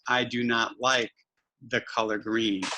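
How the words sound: The words are grouped into one smooth phrase. The speaker calls it right. "we want to have them scoop up words"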